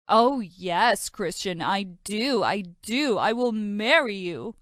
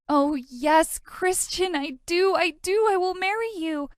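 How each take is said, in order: First: Mock her dreamy yes; mocking imitation. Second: High, breathless gushing yes; dreamy swoon. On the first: Brother teasing his sister by mimicking her. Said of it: "My stupid brother teased me". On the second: Acted. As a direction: swoon over the proposal. Dreamy acceptance of proposal.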